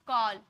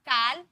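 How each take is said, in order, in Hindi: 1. स्वर एक गोलाकार 'o' ध्वनि है। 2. स्वर एक खुला, बिना गोलाई वाला 'aa' ध्वनि है। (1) "ओ में पढ़े" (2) "काल बोले क्या"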